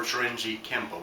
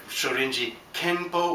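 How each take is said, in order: First: KEMPO with an M before the P; Kempo as pronounced. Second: KENPO with an N before the P; Kenpo as written. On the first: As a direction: close the lips for the m in Kempo. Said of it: "it's pronounced Kenpo". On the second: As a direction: say Kenpo as it is spelled, with n. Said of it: "Well, it's written Kenpo". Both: Shown as a demonstration.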